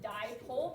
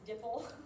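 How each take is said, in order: First: The word is said as die plus pole. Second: The word is said as two short syllables, dipple. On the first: The speaker calls it right. "you pronounce it dipole because di means two" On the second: The speaker calls it wrong. "a lot of people read this dipple"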